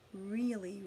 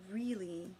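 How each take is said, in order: Both takes have the same delivery.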